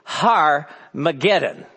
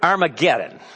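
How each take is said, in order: First: The word starts with an H sound. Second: The word starts with a plain vowel sound. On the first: The speaker calls it right. "that first A actually has a breath mark that gives it an H sound" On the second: The speaker calls it wrong. "it is not pronounced correctly in English"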